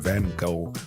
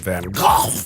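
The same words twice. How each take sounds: First: The name is said with plain, smooth sounds. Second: The name is said with harsh, throaty sounds.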